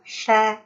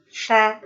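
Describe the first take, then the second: No difference in how they are said.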